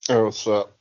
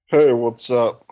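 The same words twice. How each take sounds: First: It is said with low energy. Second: It is said with high energy.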